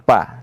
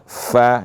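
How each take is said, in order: First: It starts with a stopped p sound. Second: It starts with a clear breathy f sound. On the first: The speaker calls it wrong. "jangan pa" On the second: The speaker calls it right. "Fa itu harus diperjelas anginnya"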